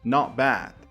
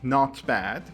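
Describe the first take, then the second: First: The sounds are relaxed and run together. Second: Each sound is said carefully and fully. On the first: "if it's pronounced more naturally" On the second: "This is actually not bad"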